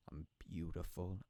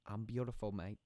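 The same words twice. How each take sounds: First: Said in the usual way. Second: Bad Australian accent. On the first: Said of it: "the Australian accent". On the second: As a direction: put on a shaky attempt at an Australian accent. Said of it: "the Australian accent is not working out well".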